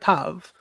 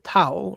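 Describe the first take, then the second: First: The word ends with a V sound. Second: The word ends with a W sound. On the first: This is the modern pronunciation. "the modern Hebrew pronunciation" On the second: This is the ancient pronunciation. "the ancient Hebrew pronunciation"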